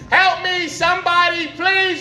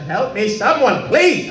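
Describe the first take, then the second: First: It is yelled very loudly. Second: It is said only a little loudly.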